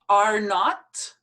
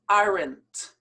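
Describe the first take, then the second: First: It is said as two full words. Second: It is contracted into one syllable ending in t.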